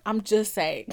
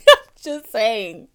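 First: Said in the usual way. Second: Loud, slow, through a laugh; amused, laughing disclaimer. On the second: Real, not acted. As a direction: laugh into it and drag the words out. Repeats it while laughing.

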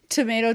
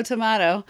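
First: Tomato with a long A, tuh-MAY-toh; tomayto. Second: Tomato with a broad A, tuh-MAH-toh; tomahto. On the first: Joking about the word, saying "Tomato" as tuh-MAY-toh. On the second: Joking about the word, now saying "tomato" as tuh-MAH-toh. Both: Shown as a demonstration.

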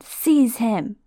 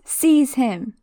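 First: Mild screamed order. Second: Higher, louder command; Voldemort ordering Quirrell to grab Harry; screamed order. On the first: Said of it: "Voldemort screamed". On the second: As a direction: bark it at the servant. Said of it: "Voldemort screams". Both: Acted.

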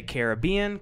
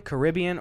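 First: "Caribbean" as kair-uh-BEE-un; third-syllable stress. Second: "Caribbean" as kuh-RIB-ee-un; second-syllable stress. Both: Shown as a demonstration. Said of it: "I either hear people say".

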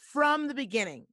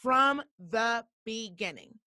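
First: "from the beginning" pitched higher with a punch on "from"; emphatic point. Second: "From the beginning" drawn out word by word; slow, deliberate emphasis. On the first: Storyteller driving home her body's warning, emphatic. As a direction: hit "from" high, then run through "the beginning". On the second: Storyteller repeating her point about the warning, slow and emphatic. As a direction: separate each word of "From the beginning", slowly. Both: Real, not acted.

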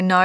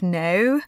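First: "no" with an Australian diphthong; Australian vowel. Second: "no" with a plain British vowel. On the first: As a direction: say "no" with an Aussie-tinged vowel. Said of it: "I say no instead of no". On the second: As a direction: say "no" the British way, without the Aussie glide. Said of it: "instead of no". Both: Shown as a demonstration.

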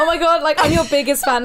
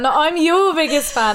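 First: Mock gushing fan. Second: Said in the usual way. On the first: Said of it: "Are we gonna go like".

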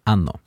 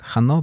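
First: Hanno said as anno, no h sound; silent h. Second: Hanno said with a breathy h at the start; spelling pronunciation. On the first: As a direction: drop the h in hanno. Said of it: "but you say hanno". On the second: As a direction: sound the written h in hanno. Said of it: "you write it with an H". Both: Shown as a demonstration.

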